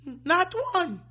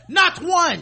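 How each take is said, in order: First: It sounds relieved, almost tearful. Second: It sounds confident and boastful.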